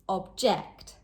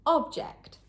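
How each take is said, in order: First: The stress is on the second syllable. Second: The stress is on the first syllable. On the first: It means to disagree. "But as a verb, on the second syllable" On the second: It names a thing. "As a noun, on the first syllable"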